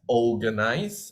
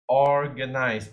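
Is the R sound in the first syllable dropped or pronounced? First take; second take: dropped; pronounced. First: The R in the first syllable is dropped. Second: The R in the first syllable is clearly pronounced. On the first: The speaker calls it wrong. "I heard someone mispronounce it as organize" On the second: The speaker calls it right. "you need to pronounce the R in the or"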